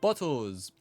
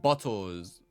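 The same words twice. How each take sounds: First: It is read in a put-on character voice. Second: It is read in the speaker's ordinary voice.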